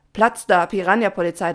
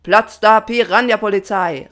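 First: Loud yet milder chorus reply; content but puzzled. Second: Loud, raised, furious motto; angry call. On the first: The swarm answers Papa, loud, content, slightly confused. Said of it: "klang zufrieden, aber immer noch etwas verwirrt". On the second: Papa dismisses the swarm, shouting quite angrily. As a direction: bellow it crossly. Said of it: "rief Papa Patron ziemlich wütend". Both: A narrator's reading.

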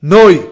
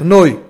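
First: נוי said loud and drawn out, final syllable of Adonai; kamatz demo. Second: נוי stressed loud as end of Adonai; kamatz demo. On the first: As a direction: punch out נוי with full kamatz. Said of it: "שימו לב". (הדגשת נוי בקול רם בקמץ) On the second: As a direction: land hard on נוי, kamatz vowel. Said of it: "וההמשך". (נוי בהדגשה רמה בקמץ) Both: Shown as a demonstration.

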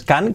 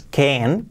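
First: "can" with an open Spanish A, like "kan"; "can" mispronounced with a plain Spanish A; wrong vowel in "can". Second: "can" with an E-like vowel, like "ken"; fronted E sound in "can". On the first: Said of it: "que no es can". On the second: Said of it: "que sea can con una E". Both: Shown as a demonstration.

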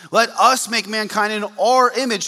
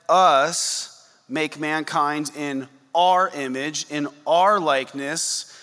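First: Our said loud with falling tune in let us make mankind in our image; stress on our. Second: Slow rising on our in us make mankind in our image; drawn out, rising our; slow emphasis. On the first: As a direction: punch our and drop. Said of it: "You notice that?". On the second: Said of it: "I want to emphasize different words". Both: Shown as a demonstration.

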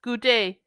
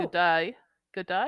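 First: "Good day" with "day" as a clean "ay"; firm, louder "Good day", no Australian vowel; corrected pronunciation. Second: "day" toward "die", lightly Australian; accidental hint of an Australian accent on "Good day"; slightly Australian. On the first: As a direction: carefully pronounce "day" to rhyme with "say". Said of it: "Australian at the beginning". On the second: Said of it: "sounded a little Australian at the beginning". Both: Shown as a demonstration.

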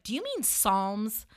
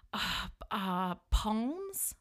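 First: "Psalms" said slowly with a silent P; correcting pronunciation. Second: "Psalms" said with the P sounded, hesitant and questioning; unsure stab at "Psalms", voicing the silent P; mispronounced Psalms. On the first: Retold or imitated. Woman correcting her date, "Psalms" with silent P. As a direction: pointedly correct it to "Psalms", starting on the S sound. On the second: Date guessing a Bible book, "Psalms" mispronounced with a P.

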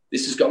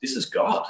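First: Said in the usual way. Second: Breathless whisper, pitched higher; awed whisper. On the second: Retold or imitated. Retelling his first encounter in the backyard, awed whisper. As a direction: hush it out in awe. I just went.

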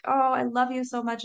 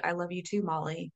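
First: Quick, high gush of love; affectionate pet talk. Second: Soft, tender reply to oneself; gentle self-love. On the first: Owner petting her goldendoodle, affectionate gush. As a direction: gush fondly to the dog, pitched up. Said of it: "I'm petting him and I'm like". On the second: Turning the dog's love on herself, soft and tender. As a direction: answer quietly and kindly, softer at the end. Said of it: "transfer that love to myself". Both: Retold or imitated.

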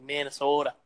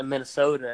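First: "Minnesota" with a long, leaned-on O; Minnesota accent. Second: Said in the usual way. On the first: Retold or imitated. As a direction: stretch the O in "Minnesota", mock Minnesotan. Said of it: "they gotta emphasize the other".

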